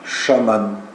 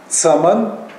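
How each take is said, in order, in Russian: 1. Слово начинается со звука sh. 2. Слово начинается со звука ts. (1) "Или вместо «ц» он произносит «ш»" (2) "Южане произносят или так, как написано"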